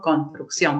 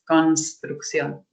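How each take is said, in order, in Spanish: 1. Se dice de forma casual, con el grupo consonántico reducido. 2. Se dice con cuidado, con todo el grupo consonántico. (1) "nosotros decimos construcción" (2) "yo no digo cons, cons, construcción"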